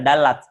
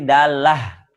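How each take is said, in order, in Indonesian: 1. Kata ini berakhir dengan bunyi t. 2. Kata ini berakhir dengan bunyi h. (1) "tidak bisa dalat" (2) "Kalau mau diwakafkan pasti dalah jadi ha"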